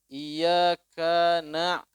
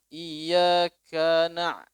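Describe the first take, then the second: Both takes have the same delivery.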